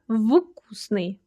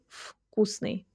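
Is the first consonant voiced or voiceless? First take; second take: voiced; voiceless. First: The first consonant is a voiced v sound. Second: The first consonant is a voiceless f sound. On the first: The speaker calls it wrong. "So we say not вкусный" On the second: The speaker calls it right. "but we say вкусный"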